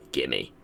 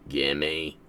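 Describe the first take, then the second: First: Low, grumbling demand; low greedy gimme. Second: The same low grumbled demand again; low greedy gimme. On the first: Player begging the game for a new Pokemon, low grumble. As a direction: growl it like a greedy child. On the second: Player pleading again with the game, grumbling low. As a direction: mutter it low, still wanting it. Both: Pretend.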